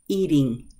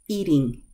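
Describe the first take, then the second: First: The middle consonant is a quick, soft D. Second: The middle consonant is a quick, soft D.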